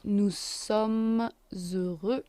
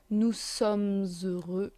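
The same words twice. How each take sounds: First: "sommes" carried into "heureux" with a z; slow liaison. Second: "sommes heureux" linked with a z, said slowly; liaison. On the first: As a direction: stretch out "nous sommes heureux." with the z link. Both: Shown as a demonstration. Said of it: "liaison because it's an H".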